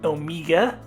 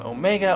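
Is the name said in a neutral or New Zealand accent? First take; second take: New Zealand; neutral. First: The name is said in a New Zealand accent. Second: The name is said in the speaker's usual accent.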